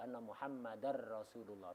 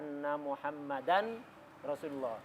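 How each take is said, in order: First: The n merges into a doubled r sound. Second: The n is pronounced separately before the r. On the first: The speaker calls it right. "Tas tasdid" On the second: The speaker calls it wrong. "dilepas ta idghamnya"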